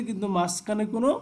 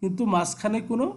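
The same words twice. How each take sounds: The two takes are said the same way.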